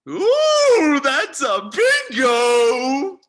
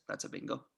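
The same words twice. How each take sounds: First: High, loud, drawn-out squeal of delight; gleeful exclamation. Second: Said in the usual way. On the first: Acted. Colonel delighted by his captors' confirmation, gleeful exclamation. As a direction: crow it slowly, stretching every word. Colonel exults at a correct guess.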